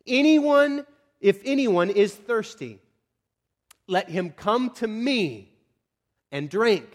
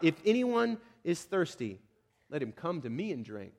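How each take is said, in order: First: Loud, high opening, then slow proclamation; calling out. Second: Subdued call. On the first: Jesus standing up amid packed worshipers, calling out. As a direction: proclaim it slowly to a whole crowd. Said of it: "At the top of his lungs". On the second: Preacher re-reading the cry of Jesus, subdued. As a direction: let the invitation sink to a quiet close. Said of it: "he cries out". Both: Acted.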